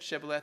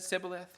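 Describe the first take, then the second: First: The word begins with an sh sound. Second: The word begins with an s sound. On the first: This is how speakers of another dialect said it. "you pronounce the same letter as sh or s" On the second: This is how speakers of one dialect said it. "you pronounce the same letter as sh or s"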